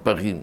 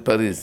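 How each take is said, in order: First: It has a throaty r and no final consonant. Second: It ends with a z sound and a plain r. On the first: "הצרפתים אומרים פגי" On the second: "היום אומרים פריז"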